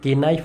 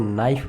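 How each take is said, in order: First: A k sound is pronounced before the n. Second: The word starts with n, no k sound. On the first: The speaker calls it wrong. "इसको के नाइफ नहीं बोलते" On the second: The speaker calls it right. "इसको नाइफ बोलते हैं"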